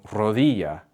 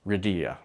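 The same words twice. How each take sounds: First: Rodilla with a trilled Spanish r and a clear o; Spanish pronunciation. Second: Rodilla with an English r and weak first vowel; anglicized rodilla, o reduced to a short ih; anglicized mispronunciation. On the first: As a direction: say rodilla as "ro-DEE-ya", crisp Spanish vowels. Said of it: "instead of saying rodilla". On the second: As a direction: say rodilla as "rih-DEE-uh", like an English speaker. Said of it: "try to anglicize the sound". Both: Shown as a demonstration.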